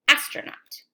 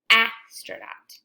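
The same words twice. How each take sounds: First: Said in the usual way. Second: "astronaut" drawn out slowly, each sound apart; slow stretched word. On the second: Shown as a demonstration. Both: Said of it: "Now I'll say it regular".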